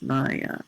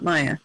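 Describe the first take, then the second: First: Both vowels are said long. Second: Both vowels are said short. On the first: The speaker calls it right. "the A's are both long" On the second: The speaker calls it wrong. "It's not Maya"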